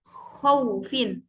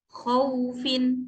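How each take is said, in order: First: The glide is pushed out with audible pressure. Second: The glide is released softly without pressure. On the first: The speaker calls it wrong. "seperti ada nabroh atau tekanan ya suara di sana" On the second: The speaker calls it right. "hurufnya itu lembut saja keluar"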